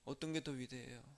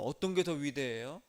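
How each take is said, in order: First: Repeated much softer and lower, "게" barely pressed; hushed repeat. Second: "게" lifted on a rising question tune. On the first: Pastor repeating the question to the congregation, hushed. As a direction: lean in and ask it quietly. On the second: Pastor asking the congregation which is greater, rising tune. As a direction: ask it openly to the room. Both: Real, not acted.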